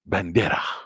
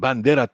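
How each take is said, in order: First: It is said with a Spanish accent. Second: It is said in a plain American English accent.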